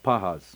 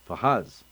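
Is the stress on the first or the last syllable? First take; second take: first; last. First: The stress is on the first syllable. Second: The stress is on the last syllable. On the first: It is a noun. "its ascent is above on the penultimate uh, syllable" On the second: It is a past-tense verb. "its accent would have been below on the last syllable"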